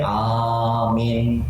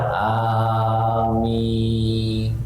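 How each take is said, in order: First: Only the first vowel is held long. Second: Both vowels are held long. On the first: The speaker calls it wrong. "a-nya panjang, min-nya pendek" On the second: The speaker calls it right. "Amin itu a-nya panjang, min-nya panjang"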